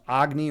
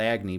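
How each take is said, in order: First: It is said with its original pronunciation. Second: It is said with a Chicago accent.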